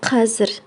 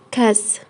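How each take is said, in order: First: The word is said in its full two-syllable form. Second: The word is said in a short one-syllable form. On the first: "сокращают слово қазір" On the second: "в разговорной речи сокращают"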